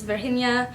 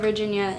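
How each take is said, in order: First: The name is said with a Spanish pronunciation. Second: The name is said with an American pronunciation. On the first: This is how the locals say the name. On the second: This is how people in America say the name.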